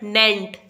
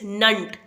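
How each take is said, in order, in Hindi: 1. आखिरी अक्षर में साफ़ 'e' स्वर है। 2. आखिरी अक्षर में हल्का 'uh' स्वर है। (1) "नॉट नेंट" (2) "इट्स नंट"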